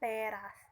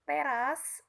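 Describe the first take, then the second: First: The first vowel is a clear e. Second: The first vowel is a weak schwa. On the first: The speaker calls it right. "yang seharusnya diucapkan" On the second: The speaker calls it wrong. "Kesalahan pengucapan"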